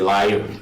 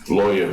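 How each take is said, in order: First: The first vowel sounds like 'eye'. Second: The first vowel sounds like 'oy'. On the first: "In British Guyana ... they say liar" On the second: "they don't say lawyer"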